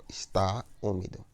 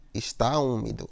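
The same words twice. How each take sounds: First: ESTÁ, a short break, then ÚMIDO; separated stressed vowels. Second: Said in the usual way. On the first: Shown as a demonstration. Teacher shows unjoined vowels, ESTÁ and ÚMIDO split by a pause. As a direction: keep ESTÁ and ÚMIDO apart. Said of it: "ficam em sílabas diferentes". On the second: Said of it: "consequentemente, ficam em sílabas diferentes".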